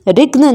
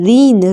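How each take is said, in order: First: A g sound is heard in the word. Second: No g sound is heard in the word. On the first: The speaker calls it wrong. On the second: The speaker calls it right.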